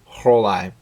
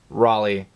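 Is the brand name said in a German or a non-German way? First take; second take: German; non-German. First: The name is said in a German way. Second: The name is said in another non-German way. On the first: This matches the brand's German origin. The speaker calls it right. "but it's German, right? So it should be" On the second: This is a pronunciation other people use. The speaker calls it wrong. "I have heard the brand name pronounced several different ways"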